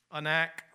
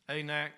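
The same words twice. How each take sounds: First: Anak with an unstressed first vowel, uh-NAK; alternate pronunciation. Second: Anak with a long A, AY-nak; alternate pronunciation. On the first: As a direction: open Anak on a schwa, then "nak". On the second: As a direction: say Anak starting like "ay" in day. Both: Shown as a demonstration. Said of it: "pronounce it either way".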